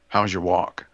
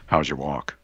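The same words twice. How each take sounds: First: It is said in a normal voice. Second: It is said in a lowered, serious voice.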